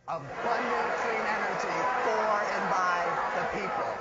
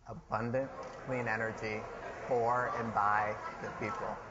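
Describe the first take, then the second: First: It is said loudly, with gusto and energy. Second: It is said plainly, without extra energy.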